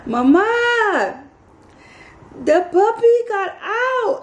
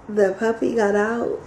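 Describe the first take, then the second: First: High, drawn-out distressed wail; imitated frantic, high-pitched neighbor; freaked-out neighbor. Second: Said in the usual way. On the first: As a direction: wail it in a panic, far above your own pitch. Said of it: "it freaked my neighbor out". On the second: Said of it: "I said".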